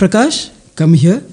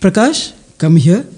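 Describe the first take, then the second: First: It is said in a warm, friendly tone. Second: It is said in a warm, friendly tone.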